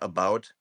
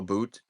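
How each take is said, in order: First: It is said in the speaker's Minnesotan accent. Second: It is said in a Canadian accent.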